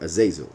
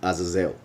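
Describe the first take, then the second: First: The name is said the English way. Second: The name is said in a non-English way.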